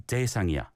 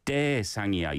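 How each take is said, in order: First: Said in the usual way. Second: "대상이야" with a big stress on 대; overemphasis on 대. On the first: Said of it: "You don't need to give a". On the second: Shown as a demonstration. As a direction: punch the 대 in "대상이야" too hard. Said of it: "a big emphasis on the 대".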